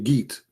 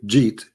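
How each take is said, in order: First: It starts with a hard g, Egyptian style. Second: It starts with a soft j sound.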